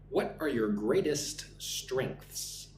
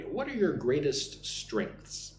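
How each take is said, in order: First: Slow interviewer question. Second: Slow, clear teacher model for repeating; slow listen-and-repeat model; slow model sentence. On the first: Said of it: "the interviewer asks me". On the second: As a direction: say it slowly so students can copy. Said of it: "Listen and repeat after me". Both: Shown as a demonstration.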